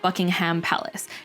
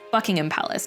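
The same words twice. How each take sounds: First: The ending sounds like a full 'ham'. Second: The ending sounds like a short 'um'. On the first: The speaker calls it wrong. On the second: The speaker calls it right. "it's more like an M sound rather than a ham sound"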